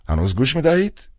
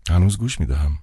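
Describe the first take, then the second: First: Higher, louder prodding question; a cold old man checking the line; old official asking. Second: Said in the usual way. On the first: A narrator's reading. Director asking the silent clown on the phone, prodding.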